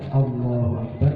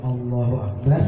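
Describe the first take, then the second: The two takes are said the same way.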